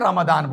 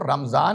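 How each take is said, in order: First: The middle consonant is a d sound. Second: The middle consonant is a z sound. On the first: This is the Arabic way of saying it. "अरबी में रमदान बोला जाता है" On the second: This is the Urdu way of saying it. "हमारे उर्दू जिसकी बात कही जाती है उसमें इसको रमजान ही बोला जाता है"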